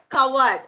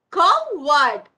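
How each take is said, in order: First: Said in the usual way. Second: "Coward" loudly split as Cow - ard; broken into syllables. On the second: Shown as a demonstration. Teacher showing how words break, split syllables. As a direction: say "Coward" as two separate loud beats. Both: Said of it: "We break the words".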